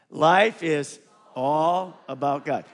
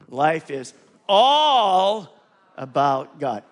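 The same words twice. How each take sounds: First: The sentence is said loud with no special stress. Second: The word all carries strong extra stress. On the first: "say it loud" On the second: "there's an underline under all. So let's read it like that"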